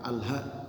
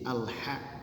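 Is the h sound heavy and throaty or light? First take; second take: light; heavy. First: The h is light and plain. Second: The h is heavy and from the throat. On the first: The speaker calls it wrong. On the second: The speaker calls it right. "Ha besar"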